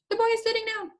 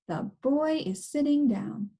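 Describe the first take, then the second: First: It is said fast. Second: It is said slowly.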